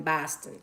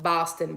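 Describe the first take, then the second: First: Boston accent with a flattened first vowel; bad Boston accent. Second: Said in the usual way. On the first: Shown as a demonstration. Host trying out the local sound, bad Boston accent on "Boston". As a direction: say "Boston" as "Baston", mock Boston accent. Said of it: "I know that's a horrible accent". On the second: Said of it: "I'm picking up Boston".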